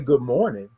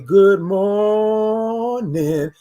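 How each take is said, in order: First: The greeting is said plainly and quickly. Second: The greeting is drawn out with stretched sounds.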